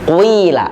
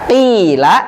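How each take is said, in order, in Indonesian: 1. Vokal pertama bercampur dengan bunyi u. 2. Vokal pertama adalah bunyi i biasa. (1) "menggunakan huruf far'i yang ini dengan dibaca menjadi qila" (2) "kita biasa bacaan kita membaca qila"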